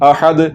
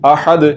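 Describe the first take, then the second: First: The first vowel is kept short. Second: The same.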